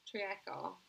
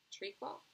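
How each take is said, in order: First: "treacle" in three syllables, tree-a-kul; tentative pronunciation. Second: "treacle" in two syllables, tree-kul, rising; questioning retry. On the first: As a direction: sound out "treacle" with an extra middle vowel. Reader tries the word two ways. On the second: Reader retries the word, unsure. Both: Real, not acted.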